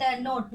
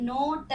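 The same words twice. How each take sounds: First: Said in the usual way. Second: नोट split as a long नो, then ट; नोट stretched into नो... ट; sounded out. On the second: Shown as a demonstration. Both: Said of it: "नोट सबको पता होगा".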